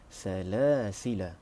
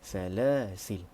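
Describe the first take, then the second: First: The word ends with a long vowel after L. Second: The word ends on the L with no vowel. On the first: "tidak membuang huruf alif" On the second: "buang huruf alif dan huruf lam dimatikan"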